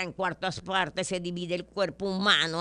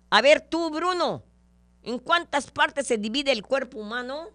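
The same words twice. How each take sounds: First: Said in the usual way. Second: Much higher, louder schoolteacher call; bossy teacher. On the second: Acted. Teacher calling on Bruno in class, loud and high. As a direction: call on the pupil sharply. Teacher questions student in joke.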